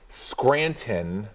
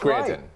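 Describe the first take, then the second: First: Every sound is pronounced with exaggerated care. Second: Sounds are relaxed but still clearly pronounced. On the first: The speaker calls it wrong. "it seems too much" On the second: The speaker calls it right. "You gotta play it just right"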